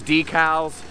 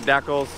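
First: The word is said the standard way. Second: The word is said the local regional way. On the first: "I know it's decals" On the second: "but I pronounce it decals"

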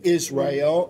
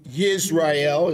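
First: The name is said as Is-ra-el. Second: The name is said as Yis-ra-el. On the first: This is the everyday American form of the name. "or we would say Israel in America" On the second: This is the original, proper form of the name. "as it's pronounced properly"

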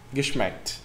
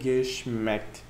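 First: The word is said at normal speed. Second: The word is said slowly and drawn out.

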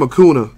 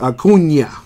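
First: The middle consonant is a plain n sound. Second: The middle consonant is an ny sound. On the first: The speaker calls it wrong. "I'm tired of people calling him Acuna. That is not the correct pronunciation" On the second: The speaker calls it right. "instead of saying it as an N, say it as like a NY. Like Acuna"

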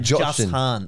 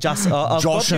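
First: The s and h are said as separate sounds. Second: The s and h form one sh sound. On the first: The speaker calls it wrong. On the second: The speaker calls it right.

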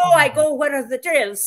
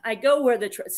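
First: It is spoken with a put-on Spanish accent. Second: It is read in the speaker's ordinary accent.

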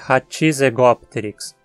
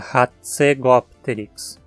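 First: An extra i vowel separates the t and z. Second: The t and z join with no vowel between. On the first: The speaker calls it wrong. "Tente também não dizer Hatzegopteryx. Não tem I entre o T e o Z" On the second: The speaker calls it right. "A pronúncia é Hatzegopteryx"

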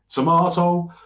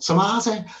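First: Tomato is said with a standard British accent. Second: Tomato is said with a Liverpool Scouse accent. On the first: "and we say tomato" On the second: "if you're a Scouser, you go tomato"

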